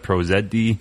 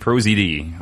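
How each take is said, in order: First: The letter Z is said the Canadian way, zed. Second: The letter Z is said the American way, zee.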